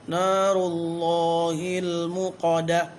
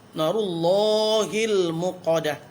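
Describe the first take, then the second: No difference in how they are said.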